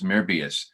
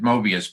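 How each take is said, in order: First: The first vowel is a rounded German 'ö'. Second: The first vowel is a plain English 'o'. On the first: This follows the original spelling of the name. The speaker calls it right. "it's really an O E in in in his name, so it's Mobius" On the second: This is the usual everyday pronunciation. The speaker calls it wrong. "We pronounce it Mobius"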